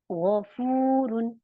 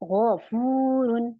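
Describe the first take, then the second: First: The first sound is heavy, from the throat. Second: The same.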